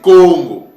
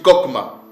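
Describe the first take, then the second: First: The middle of the word is an 'ng' sound. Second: The middle of the word is a 'km' cluster. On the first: This is the true form of the name. The speaker calls it right. "Non, c'est Congo" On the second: This is how outsiders pronounce the name. The speaker calls it wrong. "Ce n'est pas comme le prononcent euh, les Édomites"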